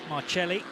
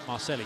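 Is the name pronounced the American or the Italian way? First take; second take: Italian; American. First: The name is pronounced the Italian way. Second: The name is pronounced the American way. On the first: The speaker calls it wrong. "rather than the Italian" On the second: The speaker calls it right. "that's the American pronunciation"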